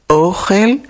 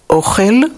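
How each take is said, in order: The two takes are said the same way.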